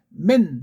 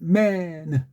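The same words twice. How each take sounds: First: The word ends abruptly and crisply. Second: The word's ending trails off softly. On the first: "우리는 맨 하고 딱 부러지게 끝나요" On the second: "세상 모든 아이들은 맨"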